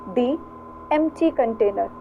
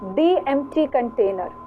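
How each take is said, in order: First: The article is said with a long "thee" vowel. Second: The same.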